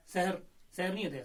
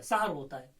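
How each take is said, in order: First: सहर said as "sehar", the magic word, by mistake; wrong pronunciation. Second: सहर said "sahar", with open a sounds, meaning dawn; correct pronunciation. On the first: Teacher showing students the common mistake, सहर as "sehar". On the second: Teacher giving students the correct सहर, "sahar". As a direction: say सहर as "sa-har". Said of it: "सहर का वक्त". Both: Shown as a demonstration.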